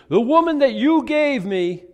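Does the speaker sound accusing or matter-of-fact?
accusing. It is said in an accusing, blaming tone. The speaker blames someone else for the act. "I've heard it 1,000 times"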